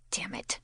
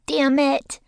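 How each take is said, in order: First: Whispered, breathless curse under the breath; muttered curse. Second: Put-on high, loud little kid curse; toddler cursing. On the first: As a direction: hiss it under your breath. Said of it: "I mutter". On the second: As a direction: blurt it like a small child. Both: A narrator's reading.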